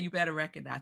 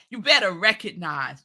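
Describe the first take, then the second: First: It is said plainly, without attitude. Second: It is said with swagger and attitude.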